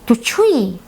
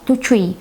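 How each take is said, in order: First: It is said with question intonation. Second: It is said with statement intonation.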